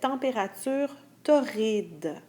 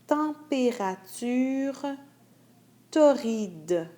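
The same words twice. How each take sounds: First: It is read at a normal, regular speed. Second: It is read more slowly than normal. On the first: "la première fois, je lis la phrase d'une vitesse régulière" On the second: "la deuxième fois, je la lis plus lentement"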